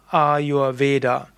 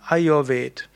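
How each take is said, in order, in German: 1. Das Wort endet auf einen kurzen Vokal. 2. Das Wort endet auf einen Konsonanten, am Schluss steht kein Vokal. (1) "Vom Sanskrit her sagt man Ayurveda" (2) "die Hindi-Aussprache wäre eben Ayurved"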